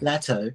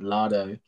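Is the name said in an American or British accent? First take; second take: British; American. First: The name is said in a British accent. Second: The name is said in an American accent. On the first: "because we're English here, I'll be like" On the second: "So if I say an American accent"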